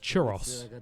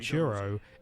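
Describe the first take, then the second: First: It is said in a British-style pronunciation. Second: It is said in the speaker's usual pronunciation. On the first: "a British pronunciation of the word churro is churros" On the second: "the word churro"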